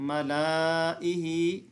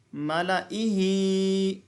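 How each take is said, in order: First: मलाइही said in a quick spoken way as the wrong form; wrong reading. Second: मलाइही chanted very slowly with no extra alif sound; correct reading. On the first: Teacher showing the wrong reading of मलाइही. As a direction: say मलाइही as students should not read it. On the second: Teacher showing the right reading of मलाइही. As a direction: stretch मलाइही without voicing the silent alif. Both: Shown as a demonstration. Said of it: "इसको मलाइही नहीं पढ़ेंगे।".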